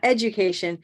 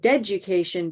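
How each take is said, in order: First: The word begins with a plain vowel sound. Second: The word begins with a linked D sound. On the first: The speaker calls it wrong. "Not education" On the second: The speaker calls it right. "but deducation, because the D of child is connecting"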